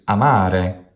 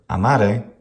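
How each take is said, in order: First: The middle vowel is long. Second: The middle vowel is short. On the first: The speaker calls it right. "It's amare, short, long, short" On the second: The speaker calls it wrong. "amare is completely wrong"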